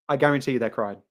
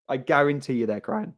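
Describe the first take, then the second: No difference in how they are said.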